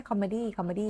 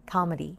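First: "comedy" with Thai tones and even syllables; Thai-style loanword. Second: "comedy" stressed on the first syllable, then falling; English pronunciation. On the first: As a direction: say "comedy" as a borrowed Thai word. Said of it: "ทับศัพท์แล้วก็พูดไหม". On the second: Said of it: "อันนี้ก็ทับศัพท์". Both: Shown as a demonstration.

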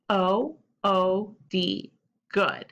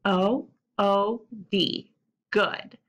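No difference in how they are said.

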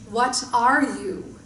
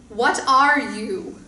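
First: Slow, slightly louder creature voice; a touch of the booming creature; creature asking again. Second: Slow, loud monster roar; slow booming creature voice; frightening deep roar. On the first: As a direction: repeat the question like a patient giant. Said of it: "it asked again". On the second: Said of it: "a frightening, deep voice roared". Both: Acted.

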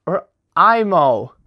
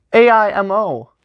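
First: Imo said as one word, EE-moh; settling on imo as one word. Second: A I M O said as four separate letters; first try, reading A I M O as initials; spelled out letters. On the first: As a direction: say imo as a single word, slowly. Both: Shown as a demonstration. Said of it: "I'm gonna say imo".

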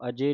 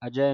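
First: ਅਜੇ ending in a close e; ਅਜੇ with a narrow final vowel; mistaken final e. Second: ਅਜੈ ending in an open ai; ਅਜੈ with a wide final vowel; correct final ai. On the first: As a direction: say ਅਜੇ as a-jay. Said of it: "ਇਹਨੂੰ ਅਜੇ ਨਹੀਂ ਪੜ੍ਹ ਦੇਣਾ". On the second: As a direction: say ਅਜੈ as a-jai, like eh. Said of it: "ਦਲਾਵਾਂ ਦੇ ਨਾਲ ਬੋਲਣਾ ਹੈ". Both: Shown as a demonstration.

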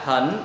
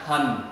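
First: "hỉnh" rising at the end; rising "hỉnh" as a model; changed to second tone. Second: "hình" low and falling; low, unchanged "hình"; original third tone. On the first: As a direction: sweep "hỉnh" upward. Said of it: "đọc thành thanh hai là". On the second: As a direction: keep "hình" down low, with no rise. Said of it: "chữ này nè ha". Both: Shown as a demonstration.

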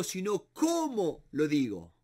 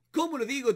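First: Said in the usual way. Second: "Cómo" lifted higher, the rest falling away; emphatic repeat with "Cómo" pitched up; stress on cómo. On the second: Shown as a demonstration. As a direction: lean hard on "Cómo" as the key word.

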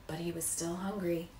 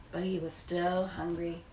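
Both takes have the same delivery.

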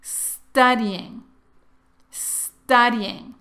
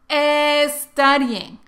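First: Studying empezando directo con la s, sin e delante; pronunciación correcta. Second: Studying dicho "estudying", con una e delante de la s; añade una e antes de studying, como hispanohablante; pronunciación incorrecta. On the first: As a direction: di studying arrancando con s pura. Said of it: "Ahora tú ya sabes la pronunciación correcta". (studying sin la e inicial) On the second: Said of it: "pero muchos decimos studying, pero no". (studying con e inicial, el error típico) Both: Shown as a demonstration.

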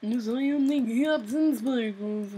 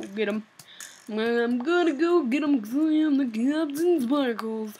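First: Lightly put-on boastful hero voice; mild mock hero voice; Captain Sparkles impression. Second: A lightly put-on cartoon hero voice; hint of a mock superhero voice; Captain Sparkles impression. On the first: Shown as a demonstration. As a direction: announce yourself like a proud cartoon hero. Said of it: "That's, that's my voice impression". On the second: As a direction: puff up like a self-important hero. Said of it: "that's my voice impression".

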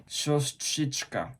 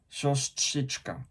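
First: Said in the usual way. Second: "siostrzyczka" said slowly, each sound spelled out; careful slow word. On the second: Shown as a demonstration. Japanese learner showing his hardest Polish word, said slowly. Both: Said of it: "to słowo to siostrzyczka".

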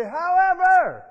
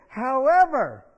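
First: Higher and louder, slow; emphatic call. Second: Louder, drawn out; reading the letter's turn; emphatic however. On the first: Shown as a demonstration. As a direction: belt out the word however. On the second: Real, not acted. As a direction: land the word however hard. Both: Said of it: "Say it like you mean it".

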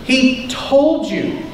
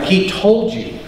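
First: "told" drawn out slow and higher; stress on told. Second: Said in the usual way. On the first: Acted. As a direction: lean hard and slow on "told". Repeats the line for emphasis.

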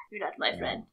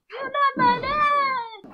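First: Whispered. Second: Silly slow voice. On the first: Real, not acted. First take whispered. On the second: Pretend. Repeats line in a weird voice.

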